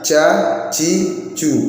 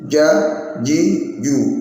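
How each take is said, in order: First: The j sound is released with audible breath. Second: The j sound is pressed with no breath. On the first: The speaker calls it wrong. "bukan jajiju" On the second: The speaker calls it right. "terletak di tengah lidah, ditekan, tidak boleh ada hambasnya"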